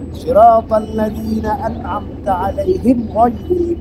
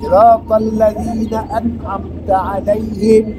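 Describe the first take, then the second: First: It runs on after alaihim without a pause. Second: It stops with a pause after alaihim. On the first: The verse is read as not ending there. "Cara bacanya" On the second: The verse is read as ending there.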